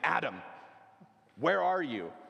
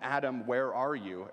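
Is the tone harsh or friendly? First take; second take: harsh; friendly. First: It sounds harsh and unfriendly. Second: It sounds warm and friendly.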